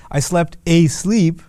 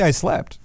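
First: "I slept asleep" drawn out slowly with weight on "asleep"; slow "I slept asleep", stress landing on "asleep"; slow emphatic repetition. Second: Said in the usual way. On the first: Shown as a demonstration. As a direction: lean into "asleep" to show how hard you slept. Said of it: "But they'll say". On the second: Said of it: "You could just say".

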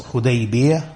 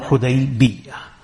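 First: Hudaybiyah with a single, unstressed y sound; without tashdeed. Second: Hudaybiyah slowed, with a doubled y; with tashdeed. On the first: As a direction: keep the ya in Hudaybiyah light, not doubled. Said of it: "without the tashdeed on the ya". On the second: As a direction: hold the double ya near the end of Hudaybiyah. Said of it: "with the tashdeed". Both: Shown as a demonstration.

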